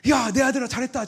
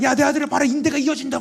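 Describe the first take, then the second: First: High, loud, beaming call of a proud father; God's proud praise. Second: Very high, loud, jubilant shout; God's exultant call. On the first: Imagined God cheering his son, high and loud. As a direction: cry out the praise as if heaven is cheering. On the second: Imagined God showing his son healed, jubilant shout. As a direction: announce the miracle like a triumphant father. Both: Retold or imitated.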